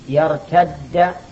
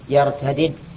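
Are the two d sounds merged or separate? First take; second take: merged; separate. First: The two d sounds merge into one doubled d. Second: The two d sounds are said separately. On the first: "الإدغام جائز ليس بواجب" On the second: "وأن تقول يرتدد"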